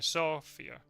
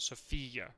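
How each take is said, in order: First: The stress falls where English speakers put it. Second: The stress falls where Spanish speakers put it. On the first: "so you say in English" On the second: "not Sofia, like in Spanish"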